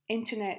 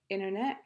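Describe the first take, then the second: First: The t sound after n is clearly pronounced. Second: The t sound after n is left out.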